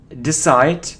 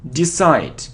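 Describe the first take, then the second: Both takes have the same delivery.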